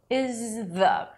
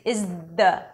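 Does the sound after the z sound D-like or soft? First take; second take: soft; D-like. First: The z flows softly into a light th. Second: The z stops hard into a D-like sound. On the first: The speaker calls it right. "use a lot of breath and actually push your tongue forward with your breath" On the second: The speaker calls it wrong. "It's going to sound like a D"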